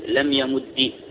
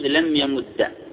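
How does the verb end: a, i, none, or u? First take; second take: i; a. First: The final consonant is doubled and ends in i. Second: The final consonant is doubled and ends in a.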